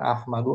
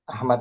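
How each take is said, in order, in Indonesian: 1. Nama ini diakhiri vokal u. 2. Nama ini diakhiri konsonan d. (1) "jangan hiraukan Ahmadu" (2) "Ahmad saja"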